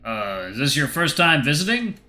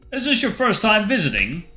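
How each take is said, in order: First: It is said in a plain voice. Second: It is said in a Mario-style Italian accent.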